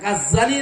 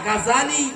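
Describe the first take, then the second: First: The middle z sound is long and doubled. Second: The middle z sound is short and single. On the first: The speaker calls it wrong. "এই উচ্চারণটা ভুল, এটা গাজ্জালি না" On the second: The speaker calls it right.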